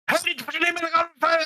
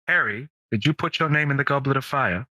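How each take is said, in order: First: It is said frantically and very fast. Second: It is said calmly in a booming voice.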